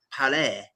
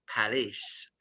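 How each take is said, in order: First: "Palais" said the French way, final s silent; French pronunciation. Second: Said in the usual way. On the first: Shown as a demonstration. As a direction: say "Palais" as a French place name. French-style attempt at Paris.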